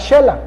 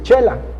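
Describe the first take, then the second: First: The word begins with a 'sh' sound. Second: The word begins with a 'ch' sound. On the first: This is how the locals say it. "cómo pronuncian allá la palabra Shela" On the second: This is how people from the east say it. "nosotros podíamos decir Chela"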